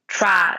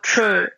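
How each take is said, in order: First: The vowel is an open 'a', like 'tra'. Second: The vowel is reduced, like 'tre'. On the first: The speaker calls it right. "instead of tra" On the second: The speaker calls it wrong. "they go tre"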